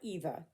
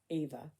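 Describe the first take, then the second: First: The name has its German pronunciation. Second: The name has an anglicized pronunciation. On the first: The speaker calls it wrong. "not Eva" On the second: The speaker calls it right. "That's how I pronounce it"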